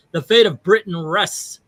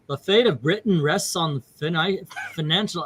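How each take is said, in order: First: Said in the usual way. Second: Badly attempted English accent. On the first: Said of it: "I should be doing an English accent". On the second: Shown as a demonstration. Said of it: "let's see, English accent".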